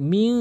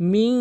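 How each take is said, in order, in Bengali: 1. শেষের ন লুকানো এবং নাসিকাযুক্ত। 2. শেষের ন লুকানো এবং নাসিকাযুক্ত।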